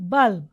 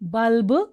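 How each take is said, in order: First: The final b is very faint, barely heard. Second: The final b is fully and clearly pronounced. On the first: The speaker calls it right. "Say బల్బ్" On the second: The speaker calls it wrong. "Don't say it as బల్బ్"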